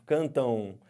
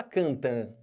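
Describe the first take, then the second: First: "cantam" terminando em "ão" alongado; pronúncia com ditongo. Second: "cantam" terminando em A nasal puro, sem U; pronúncia errada. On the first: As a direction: deslize o A nasal de "cantam" até U. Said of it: "aqui vai ficar um O". ("cantam" dito como "cantão") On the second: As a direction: diga "cantam" como "cantã". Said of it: "no final você não fala". ("cantam" sem o ditongo final) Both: Shown as a demonstration.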